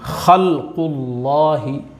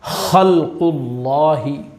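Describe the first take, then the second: No difference in how they are said.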